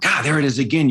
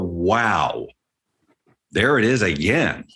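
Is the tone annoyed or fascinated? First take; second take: annoyed; fascinated. First: It sounds annoyed and frustrated. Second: It sounds fascinated and amazed.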